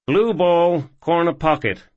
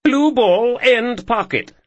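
First: High, bright call of the shot; eager young cowboy. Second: Much higher, louder put-on posh accent; fake posh voice. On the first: Acted. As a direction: announce the shot, cocky and loud. Ethan calls his pool shot. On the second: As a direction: call the shot in a hammy posh accent. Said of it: "Ethan, fake posh voice".

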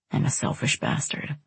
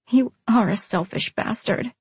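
First: Low, soft, near-whispered admission; hushed confession. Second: "are" leaned on in gentle agreement; agree, putting the weight on "are"; stress on "are". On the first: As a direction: own up to it very softly. Apology in tender reconciliation. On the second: She agrees, turning his words back. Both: A narrator's reading.

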